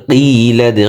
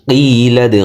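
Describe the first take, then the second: Both takes have the same delivery.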